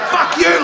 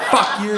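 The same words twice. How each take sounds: First: Full-on high-pitched yell; headlining shout. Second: Trying out the insult, pitched up; a rehearsal yell, not full force; tentative swearing. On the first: Meth head headlining on public transport, high shout. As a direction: belt it out like the main act. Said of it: "They're headlining". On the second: Meth head learning at open mic, tentative yell. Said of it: "like, trying it". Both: Acted.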